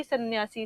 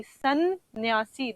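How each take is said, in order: First: Said in the usual way. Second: सन्यासी drawn out very slowly with a held न्न; slow syllable-by-syllable. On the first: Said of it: "आप बोल के देखिए खुद भी". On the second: Shown as a demonstration. Teacher to students, slowly sounding out सन्यासी. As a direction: stretch सन्यासी out, pausing between syllables. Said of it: "दो बार आप रुके हैं".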